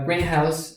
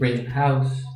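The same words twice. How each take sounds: First: The stress falls on the word green. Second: The stress falls on the word house. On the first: It is a glass or plastic building for growing plants. "A greenhouse is this place where you grow plants" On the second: It is a house that is colored green. "you're saying literally like a house color green"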